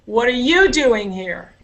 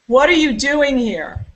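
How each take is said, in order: First: The main stress falls on a word before 'here'. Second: The main stress falls on the word 'here'.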